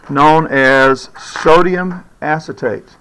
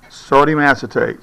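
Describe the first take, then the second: First: Sodium acetate said slowly, sodium stressed; slow, stressed term. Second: Said in the usual way. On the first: Shown as a demonstration.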